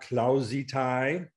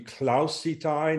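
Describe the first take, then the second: First: The middle consonant is a buzzing z sound. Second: The middle consonant is a hissing s sound. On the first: The speaker calls it wrong. "never like zebra" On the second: The speaker calls it right. "the letter S is always like Sam"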